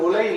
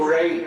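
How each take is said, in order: First: The middle consonant is a plain l. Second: The middle consonant is a retroflex zh. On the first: The speaker calls it wrong. "அது உலை இல்ல" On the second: The speaker calls it right. "மருந்து உழை"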